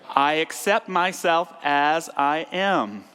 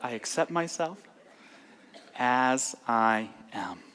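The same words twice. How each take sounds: First: It is said intensely, with high energy. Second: It is said calmly, with lower energy.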